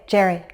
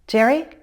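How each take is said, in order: First: The pitch falls at the end, like a statement. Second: The pitch rises at the end, like a question. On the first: The speaker needs a response now. "It's mostly falling intonation like a statement" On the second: The speaker hopes for a response. "I'm using rising intonation, but it's not at a very high pitch"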